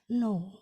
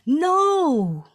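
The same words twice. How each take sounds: First: The word is said plainly without vocal variety. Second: The word is said with lively, varied pitch. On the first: The speaker calls it wrong. "instead of simply saying no" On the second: The speaker calls it right. "you could have said no"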